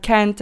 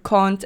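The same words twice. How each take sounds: First: "can't" with the short a of cat, kant; English-style can't. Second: "can't" with a long ah, kahnt; broad-a can't. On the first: Vlogger listing words she varies, short-a pronunciation. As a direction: say "can't" with a front a. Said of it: "the same with all the words". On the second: Vlogger listing words she varies, broad-ah pronunciation. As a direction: open "can't" up to the vowel of father. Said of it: "different pronunciations of certain words". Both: Shown as a demonstration.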